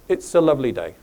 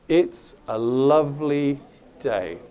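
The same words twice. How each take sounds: First: It is said at normal speed. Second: It is said slowly, at half speed.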